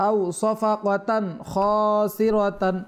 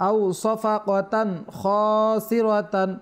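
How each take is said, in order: The two takes are said the same way.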